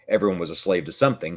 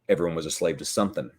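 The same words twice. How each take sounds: First: The final g of something is clearly pronounced. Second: The final g of something is dropped. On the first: "he wouldn't say" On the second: "he would say ... he dropped his G's"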